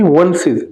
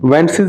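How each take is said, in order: First: The vowel sounds like the 'u' in 'but'. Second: The vowel sounds like the 'e' in 'bet'. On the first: The speaker calls it right. "वेंसेस नहीं वंसेस" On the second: The speaker calls it wrong. "नहीं"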